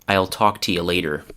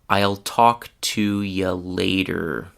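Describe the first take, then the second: First: The sentence is spoken at normal speed. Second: The sentence is spoken slowly. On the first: "the second time will be at normal speed" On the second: "The first time I will speak slowly"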